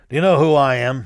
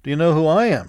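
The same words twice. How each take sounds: First: A touch louder, gruff and affronted; gruff demand. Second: Understated, cool and sure of himself; cool retort. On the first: Woken general demands of the intruder, mildly gruff. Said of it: "he gruffly demanded". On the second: Mosby turns the question back on the general, coolly. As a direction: throw the question back calmly. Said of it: "retorted Mosby coolly". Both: A narrator's reading.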